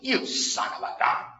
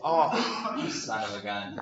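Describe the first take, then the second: First: It is said in an angry, scolding tone. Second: It is said in a warm, friendly tone.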